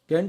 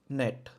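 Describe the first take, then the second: First: The word starts with a hard G sound. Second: The word starts without any G sound.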